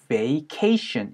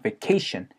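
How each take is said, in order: First: The first syllable is said fully, like 'vay'. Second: The first syllable shrinks to 've', stress on 'ca'. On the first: The speaker calls it wrong. "우리 vacation 이라고 잘 하지 않아요" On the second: The speaker calls it right. "ca의 강세가 꽝 하고 찍히면서요, v라는 소리가 거의 ve"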